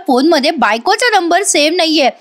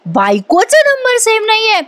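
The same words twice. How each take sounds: First: Said in the usual way. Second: Disbelief. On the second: Retold or imitated. Wife repeats in disbelief.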